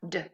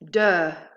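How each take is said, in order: First: The d sound is said without a vowel. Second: The d sound is followed by a short vowel.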